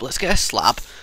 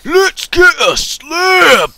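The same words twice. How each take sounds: First: It is said in the speaker's ordinary accent. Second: It is said in a Scottish accent.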